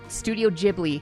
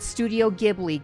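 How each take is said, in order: First: Ghibli is said with a Japanese-style pronunciation. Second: Ghibli is said with an anglicized pronunciation. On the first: The speaker calls it right. "This right here is how it's written in Japanese. So it's Studio Ghibli" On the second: The speaker calls it wrong. "not Studio Ghibli"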